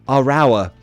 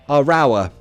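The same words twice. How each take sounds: No difference in how they are said.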